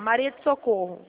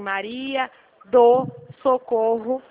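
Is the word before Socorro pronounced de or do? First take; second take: de; do. First: The small word before Socorro sounds like de. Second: The small word before Socorro sounds like do. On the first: The listener heard a different word in the name. The speaker calls it wrong. "juntou o seu sotaque, você falou assim, ó" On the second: The listener hears the name as intended. The speaker calls it right. "Eles querem que fala assim"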